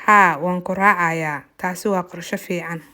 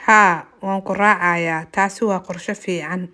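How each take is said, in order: Both takes have the same delivery.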